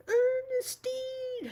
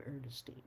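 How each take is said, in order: First: Long drawn-out high yell of the name; shouted full name. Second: Said in the usual way. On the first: Retold or imitated. Teammate hollering her full name across the court, a long high yell. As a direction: call it across the court, stretched out slowly. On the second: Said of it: "I really like my full name".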